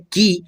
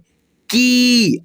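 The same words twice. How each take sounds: First: The vowel is short and clipped. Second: The vowel is drawn out and long. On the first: "क में छोटी ई की मात्रा लगा था तो पढ़े हैं की" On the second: "थोड़ा सा घींच करके बोलना है की ऐसे"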